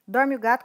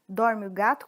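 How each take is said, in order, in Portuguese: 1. É dito em ritmo muito rápido. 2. É dito em ritmo mais rápido. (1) "Muito rápido" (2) "Mais rápido agora"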